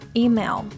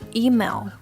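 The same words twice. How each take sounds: The two takes are said the same way.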